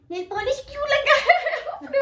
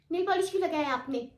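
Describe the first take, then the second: First: High, loud mock teacher demanding with a laugh; "लगाया" pushed high and loud like an angry teacher; scolding teacher. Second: Said in the usual way. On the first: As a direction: play the teacher grilling a student, half laughing. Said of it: "मुझे विश ने बुलाया".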